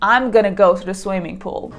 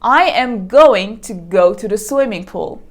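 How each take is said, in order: First: The words run together into a shortened form. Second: Every word is said fully and separately.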